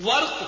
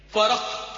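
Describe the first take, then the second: First: "ورق" as warq, one syllable; squashed, punched "ورق", warq; wrong pronunciation. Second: "فرق" said waraq, two syllables; careful vowel after r in "فرق", waraq; correct pronunciation. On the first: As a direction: drop the vowel after r in "ورق". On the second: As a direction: say "فرق" as wa-raq. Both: Shown as a demonstration. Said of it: "یہ غلط ہے".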